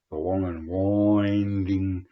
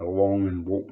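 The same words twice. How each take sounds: First: Drawn out slowly. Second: Said in the usual way. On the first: Shown as a demonstration. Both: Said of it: "you know, drawn out".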